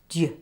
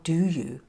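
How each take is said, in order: First: The two words merge into one short syllable. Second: Both words are said fully and separately.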